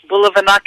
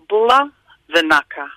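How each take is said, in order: First: It is said at normal conversational speed. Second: It is said slowly and carefully.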